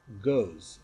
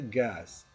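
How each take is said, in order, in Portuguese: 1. A vogal soa como a vogal em 'go'. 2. A vogal soa como a vogal em 'does'. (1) "mas goes" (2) "a pronúncia não é gas"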